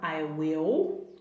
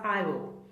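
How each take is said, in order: First: It is said as two full words. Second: The two words are joined into one syllable. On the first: It is the more formal form. "você vai pronunciar I will" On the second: It is the more informal form. "você vai juntar os dois, vai ficar I will"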